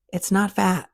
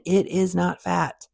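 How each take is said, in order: First: Said in the usual way. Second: "It is not fat" slow, each word weighted; deliberate slow emphasis on "not fat"; slow emphatic repeat. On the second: Shown as a demonstration. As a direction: spell out It is not fat slowly, leaning on "not". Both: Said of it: "Let me say that again".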